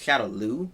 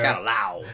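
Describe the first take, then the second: First: The last syllable ends in an 'oo' sound. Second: The last syllable ends in an 'ow' sound. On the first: The speaker calls it right. "it's Shadow Lu" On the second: The speaker calls it wrong. "not Shadow Lao. There's no W in that"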